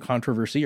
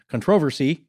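First: The word is said with an American pronunciation. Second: The word is said with an English pronunciation.

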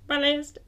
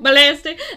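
First: The word is said quietly. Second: The word is said loudly. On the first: "Say it quieter" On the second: "Sorry if that's too loud"

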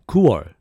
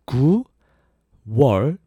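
First: The word is said quickly and smoothly. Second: The word is said slowly and carefully. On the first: "Faster that would be" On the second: "So that's"

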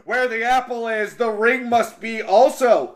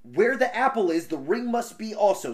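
First: It is said in a put-on giant voice. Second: It is said in a plain reading voice.

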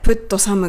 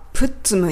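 First: The t and s are pronounced separately. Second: The t and s merge into a ts sound.

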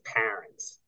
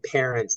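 First: It is said in a New York accent. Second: It is said in a neutral accent. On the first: "they say parents" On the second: "instead of saying parents"

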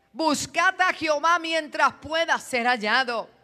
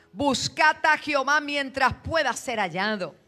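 Both takes have the same delivery.

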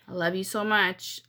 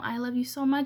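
First: The words sound sharp and cold. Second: The words sound warm and affectionate. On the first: It conveys a completely different message. The speaker calls it wrong. "but you're saying it with like a" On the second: The speaker means the loving words. The speaker calls it right. "If you're saying, you know, I love you so much, sweetie"

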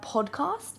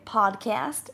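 First: It is said in a non-American accent. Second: It is said in an American accent.

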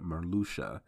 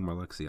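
First: The name is said as Marluxia, beginning Marlu. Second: The name is said as Malarxia, beginning Malar. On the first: The speaker calls it right. "I'm sorry, Marluxia" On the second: The speaker calls it wrong. "I keep saying Malarxia"

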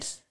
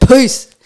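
First: It is said softly and quietly. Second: It is said loudly with energy.

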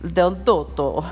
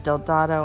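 First: The name is said with an Italian pronunciation. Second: The name is said with an American pronunciation. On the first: "the Italian way of actually pronouncing it is Del Dotto" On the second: "our American version is Del Dado"

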